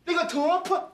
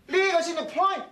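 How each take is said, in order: First: "point" broken into "two-pa", pitched high; misread "point". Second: "point" said properly as one syllable, pitched high; correct "point". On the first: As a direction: mimic the wrong reading, "point" turned into "two-pa". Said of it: "呢邊係two point". (將「point」讀錯做「two-pa」) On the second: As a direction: show the right "point", ending on its n-t. (正確讀出「point」) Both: Shown as a demonstration.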